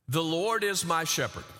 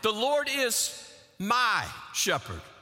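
First: It is said evenly with no special stress. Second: The stress is on "my".

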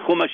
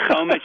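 First: The first vowel is a u sound. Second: The first vowel is an o sound. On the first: "chumash is the same word. You can pronounce it chu" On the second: "You can pronounce it chu instead of cho"

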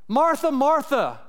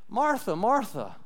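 First: The voice sounds harsh and angry. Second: The voice sounds soft and gentle. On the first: The listener is being scolded as foolish. "Is he talking like that" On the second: The listener is being invited to rest. "or is it more like this?"

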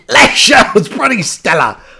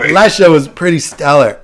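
First: It is read in a put-on Canadian accent. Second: It is read in the speaker's ordinary accent. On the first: "this is my Canadian accent" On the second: "I'm going to read it"

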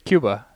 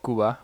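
First: The word is said the American way. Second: The word is said the foreign, local way. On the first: This is the usual American habit. "but we just say Cuba" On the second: This is how the country's own people say it. "it should be called Cuba"

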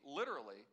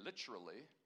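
First: It is said in the speaker's usual American accent. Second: It is said in a British accent.

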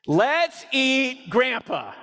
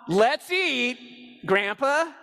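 First: It runs on with no pause before Grandpa. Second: There is a pause before Grandpa.

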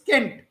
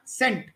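First: The word begins with a hard K sound. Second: The word begins with a soft S sound. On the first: This is the original Latin pronunciation. The speaker calls it right. "Latin had K. So it's kent" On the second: This is the later French-style pronunciation. The speaker calls it wrong. "not sent. We use the French word sent"

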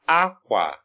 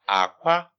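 First: The tone goes from high to low. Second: The tone goes from low to high. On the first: It means cloth. "it's high tone, low tone" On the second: It means egg. "it's low tone, high tone"

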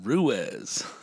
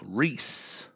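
First: The name has two syllables, rhyming with Suez. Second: The name has one syllable, sounding like Reese. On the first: "Like the Ruiz Canal" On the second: "Like Reese Witherspoon"

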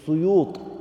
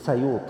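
First: The first vowel is u. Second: The first vowel is a. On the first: "they place a Dhamma on the scene" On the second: "some place a fatha on the scene"

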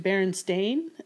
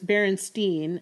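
First: The last syllable rhymes with 'rain'. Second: The last syllable rhymes with 'line'.

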